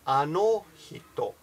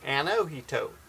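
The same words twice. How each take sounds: First: The vowels are pure, clipped Japanese vowels. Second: The vowels have an exaggerated American quality. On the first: The speaker calls it right. "that's how I would do it" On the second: The speaker calls it wrong. "more of a an American tone with the vowels... I'm exaggerating Jen's pronunciation"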